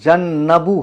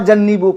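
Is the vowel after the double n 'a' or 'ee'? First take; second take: a; ee. First: The vowel after the double n is short a. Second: The vowel after the double n is long ee. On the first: The speaker calls it right. "वसयु जन्नबू है" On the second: The speaker calls it wrong. "छह मरतबा जन्नीबू पढ़ा इसने"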